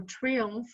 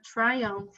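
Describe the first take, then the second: First: "triumph" said as TREE-umf, unsure; "triumph" softly offered as TREE-umf; alternative pronunciation attempt. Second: "triumph" with a long "eye" in the first syllable; "triumph" pronounced TRY-umf; first pronunciation attempt. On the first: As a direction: try "triumph" with "ee" in the first syllable. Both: Real, not acted. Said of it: "not sure how to pronounce".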